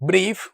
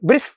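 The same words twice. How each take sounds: First: The vowel is drawn out long. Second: The vowel is short. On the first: The speaker calls it right. "നീട്ടി വായിക്കുന്ന ഒരു ഉച്ചാരണമാണ്" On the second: The speaker calls it wrong. "Brief എന്നല്ല പറയാം"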